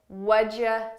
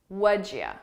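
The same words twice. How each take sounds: The two takes are said the same way.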